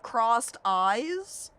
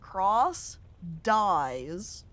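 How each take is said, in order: First: Read faster, with the d ending the first word. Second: Read slowly, with the d starting the second word. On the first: The name means the person has crossed eyes. "if you want to read it a little bit faster" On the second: The name means the person dies. "obviously supposed to be"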